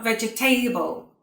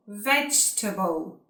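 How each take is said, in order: First: "vegetable" as vej-e-TAY-bul, ending like table; four syllables in "vegetable", rhyming the end with table; mispronounced vegetable. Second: "vegetable" as vej-tuh-bul; three syllables in "vegetable", weak unstressed ending; correct vegetable. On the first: Teacher showing learners the error, "vegetable" as vej-e-tay-bul. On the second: Teacher correcting the error, "vegetable" as vej-tuh-bul. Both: Shown as a demonstration. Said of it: "not vegetable".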